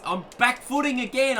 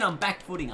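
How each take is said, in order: First: Much higher, louder burst on back footing again; yelped, pitch jumping up; excited exclamation. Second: Said in the usual way. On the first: Real, not acted. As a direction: blurt it out in surprised excitement. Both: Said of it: "I swear I'm, I'm back footing".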